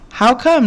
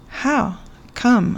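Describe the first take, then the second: First: Both words run together as one quick question. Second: A pause separates the words; come trails off.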